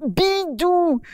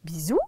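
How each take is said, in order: First: "Bidou" with a firm d, higher; correcting the name. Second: "Bisou" with an s, lower and softer, puzzled; mishearing. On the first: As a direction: stress the d in "Bidou" to correct her. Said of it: "pas Bisou". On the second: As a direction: say "Bisou" with a clear s sound as a mishearing. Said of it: "Mais non, pas Bisou". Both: Acted.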